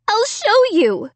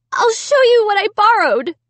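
First: High, slow desperate cry. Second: High, loud desperate cry. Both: A narrator's reading. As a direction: insist desperately. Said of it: "I cried".

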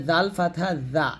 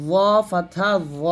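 First: Said in the usual way. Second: Slow র with a dark, rounded vowel; heavy za. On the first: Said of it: "এটা জা হবে". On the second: Shown as a demonstration. Teacher contrasting two letters, র said heavy and full. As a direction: say র as a thick, emphatic Arabic za. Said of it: "মোটা হবে".

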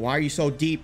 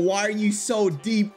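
First: Said in the usual way. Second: High, slow mock repeat of the joke. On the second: Shown as a demonstration. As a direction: stretch it out higher, teasing yourself. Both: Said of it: "and I said it again".

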